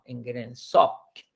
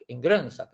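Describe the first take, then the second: First: The stress is on the last syllable. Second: The stress is on the first syllable. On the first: The speaker calls it right. "la acentuación está en la sok, última sílaba" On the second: The speaker calls it wrong. "no decimos en Grönsak"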